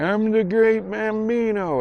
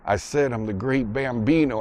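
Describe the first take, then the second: First: High, slow, muffled boast; drawn-out high-pitched mumbled brag; mouth-full movie kid. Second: Said in the usual way. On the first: Retold or imitated. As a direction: imitate a boy boasting round a mouthful. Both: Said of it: "takes it out of his mouth".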